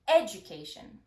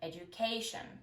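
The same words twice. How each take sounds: First: The main stress falls on a misplaced syllable. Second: The main stress falls on the usual syllable. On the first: The speaker calls it wrong. "misplacing primary stress" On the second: The speaker calls it right. "instead of"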